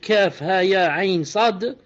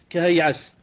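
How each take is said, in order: First: Each letter is named separately. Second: The letters are run together as one word. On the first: The speaker calls it right. "Au lieu de dire" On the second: The speaker calls it wrong. "il a lu ces lettres comme étant un seul mot"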